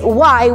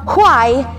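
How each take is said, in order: First: The H sound at the start is silent. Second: The H sound at the start is audible. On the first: "with silent H" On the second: "na dinig yung H"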